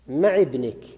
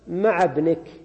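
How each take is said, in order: First: The first word ends with an 'i' vowel. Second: The first word ends with an 'a' vowel. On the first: The word is treated as fixed, with a linking vowel. "يكسر لالتقاء الساكنين" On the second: The word is treated as an inflected adverb. "مع مفتوحة وليها ساكن وهو الباء"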